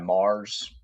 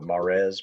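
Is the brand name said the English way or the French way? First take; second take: English; French. First: The name is said the plain English way. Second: The name is said the French way. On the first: "Assume that's how you pronounce it" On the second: "they're French, so Mares maybe"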